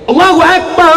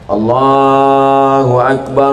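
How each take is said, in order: First: It is said loudly and forcefully. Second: It is said softly and gently. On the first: It is a call to the mosque that startles people. "Itu baru orang terkejut" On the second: It is a call for a newborn baby. "Itu azan untuk bayi baru lahir"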